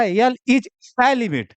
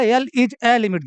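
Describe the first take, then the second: First: "L is a limit" dictated very slowly, word by word; slow dictation. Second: "L is a limit" read slowly, with weight on is; slow dictation. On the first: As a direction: spell it out slowly for copying. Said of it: "बोला था". (धीरे धीरे लिखवाते हुए) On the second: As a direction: dictate each word for the notebook. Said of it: "लिखवाया था". (धीरे धीरे बोलकर लिखवाना) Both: Shown as a demonstration.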